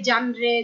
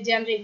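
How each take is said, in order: First: The first vowel is 'a', ending in 're'. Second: The first vowel is 'e', ending in 're'. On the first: "অনেকে জানরে" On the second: "অনেকে জানরে জেনরে বিভিন্ন"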